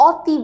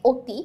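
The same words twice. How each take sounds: First: "অতি" with an open aw, as "aw-ti"; wrong open-vowel pronunciation. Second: "অতি" with a rounded closed o, as "oti"; closed-vowel pronunciation. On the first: Teacher showing students what nobody says, open aw in "অতি". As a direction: begin "অতি" on open অ, not ও. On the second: Teacher reading the example word to students, closed o in "অতি". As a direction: begin "অতি" on ও, not open অ. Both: Shown as a demonstration. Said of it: "আমরা কিন্তু কখনোই অতি বলি না".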